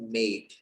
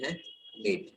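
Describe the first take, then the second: First: The word is said carefully with its full vowel. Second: The word is said quickly with its vowel reduced. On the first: "इसका सही उच्चारण होता है मेड" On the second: "कई बार अपन इतना fast बोलते हैं कि जो बीच वाला ई है ये गायब हो जाता है"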